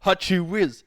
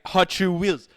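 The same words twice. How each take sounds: First: It is said with a Portuguese accent. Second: It is said with a Portuguese accent.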